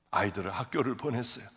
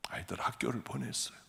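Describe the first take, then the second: First: Said in the usual way. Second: Whisper. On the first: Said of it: "repeated line". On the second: Real, not acted. Repeat whispered.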